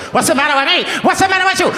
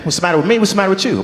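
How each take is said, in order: First: Very high, hammed-up Italian accent; mock Italian accent. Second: Hammed-up Black American accent, starting to slip; put-on Black accent. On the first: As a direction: let the accent run away into cartoon Italian, pitched way up. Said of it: "not sure where the Italian comes from". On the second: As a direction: play both parts in a put-on Black accent. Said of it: "It starts off strong".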